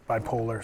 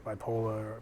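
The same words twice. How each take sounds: First: Said in the usual way. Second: "bipolar" in a Boston accent, ending "bipola" with no r; Boston accent slip, "bipolar" with the final r dropped. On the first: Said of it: "sorry, my Boston accent came out". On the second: Real, not acted. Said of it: "my Boston accent came out".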